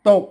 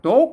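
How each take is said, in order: First: The word is said with a low tone. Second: The word is said with a rising tone. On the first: This is the standard Thai reading. "ภาษาไทย...อ่านออกเสียงตกนะครับอ่าเสียงเอก" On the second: This is the Lanna reading. "ภาษาละนาเพิ่นอ่านว่าตก นะครับมาเสียงจัตวา"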